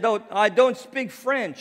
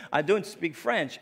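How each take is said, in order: First: High, loud, exaggerated retort; mock-emphatic raised-voice protest; overdone protest. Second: Said in the usual way. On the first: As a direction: retell it too forcefully, pitched way up. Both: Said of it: "not like that, but".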